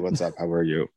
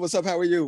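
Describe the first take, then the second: First: It is said in a flat, unenthusiastic tone. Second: It is said in a lively, vibrant tone.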